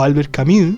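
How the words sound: The name is said with French pronunciation.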